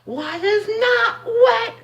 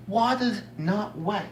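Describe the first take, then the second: First: Drawn-out, very high mock voice; mocking imitation. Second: Slow, higher-pitched mock quote; mocking imitation. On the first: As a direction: mimic them in an exaggerated falsetto, dragging each word. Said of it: "if I hear one more person say". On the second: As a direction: parrot the claim in a milder silly voice. Re-quoting the opposing claim.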